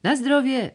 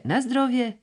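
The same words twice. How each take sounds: First: Parrot-like bird call; starling squawk. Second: High, squawking bird cry on "na zdrowie"; parrot-like bird call; starling squawk. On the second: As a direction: screech "na zdrowie" again like a caged starling. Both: A narrator's reading. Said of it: "szpak w klatce ... krzyczał".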